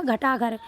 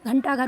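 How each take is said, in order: First: घटा घर said with no n before टा; without nasal. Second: घंटा घर said with n before टा; with nasal. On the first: Teacher recalling the undotted reading, without nasal. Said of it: "पहले क्या हो रहा था". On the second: Teacher confirming the dotted reading, with nasal. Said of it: "अब ये क्या हो गया". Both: Shown as a demonstration.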